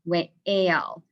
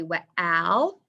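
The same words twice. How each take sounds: First: "whale" split as "weh-ale"; long A. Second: "whale" mispronounced as "weh-al", rising; short A. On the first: Teacher offering the right vowel, "whale" with long A. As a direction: stretch "whale" so the A says its name. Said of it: "is it a long A". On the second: Teacher testing a wrong vowel, "whale" as "wal". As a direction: say "whale" with the vowel of cat, as a question. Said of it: "saying the same sound here". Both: Shown as a demonstration.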